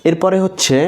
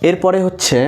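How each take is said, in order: No difference in how they are said.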